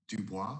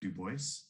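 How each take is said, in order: First: The name is pronounced the French way. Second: The name is pronounced the English way. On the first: "depending on if you're uh, speaking French" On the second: "or English"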